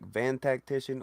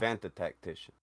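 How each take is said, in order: First: Van is said without an added tuh syllable. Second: Van is followed by an added tuh syllable. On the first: The speaker calls it wrong. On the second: The speaker calls it right.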